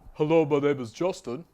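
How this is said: It is spoken in a dark, muddy voice.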